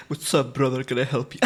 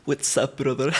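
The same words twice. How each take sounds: First: Much lower, laughing tough greeting; low mock-macho with laughs; deep bro voice. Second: Much lower, casual street-guy greeting; low mock-macho greeting; deep bro voice. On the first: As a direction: play the big guy and cover the giggle. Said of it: "pretend to use that skill". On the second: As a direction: talk like a tough dude on the street. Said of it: "gonna pretend to use that skill". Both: Shown as a demonstration.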